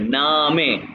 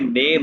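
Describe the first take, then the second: First: It is two syllables with an 'ah' vowel. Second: It is one syllable with an 'ay' vowel. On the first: The speaker calls it right. "ए को आ कहते हैं ना" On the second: The speaker calls it wrong. "नेम नहीं कहना"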